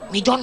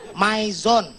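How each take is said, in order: First: The first vowel sounds like 'ee'. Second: The first vowel sounds like 'eye'. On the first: This is how street hawkers say it. The speaker calls it wrong. "Jangan pernah nyebut Mijon, jangan. Tuh tuh, pedagang asongan suka gitu tuh" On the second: This is the English-style reading. The speaker calls it right. "Kalau I ketemu dalam bahasa Inggris itu dibacanya I"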